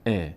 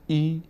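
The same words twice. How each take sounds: First: ا as a short "e"; correct short kasra. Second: ای as a long "ee", the mistake; wrong long vowel. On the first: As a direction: give ا a short "e", never "ee". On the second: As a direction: show kasra misread as a long "ee" in ای. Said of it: "ای نشه". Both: Shown as a demonstration.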